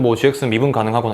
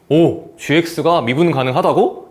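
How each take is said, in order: First: It is said in a casual, indifferent tone. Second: It is said in a surprised, attentive tone.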